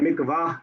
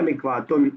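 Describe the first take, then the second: First: The word ends in a short 'ah' sound. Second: The word ends in a full 'atun' sound. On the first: The speaker stops after this word. "या तो हम हा कर देंगे" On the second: The speaker continues without stopping. "हम तनवीन ... पढ़ेंगे"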